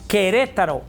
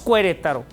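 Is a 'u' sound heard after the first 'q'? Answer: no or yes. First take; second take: no; yes. First: No 'u' sound is heard after the 'q'. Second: A 'u' sound is heard after the 'q'. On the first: The speaker calls it right. "decimos Querétaro, la U la omitimos" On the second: The speaker calls it wrong. "pero no decimos Querétaro"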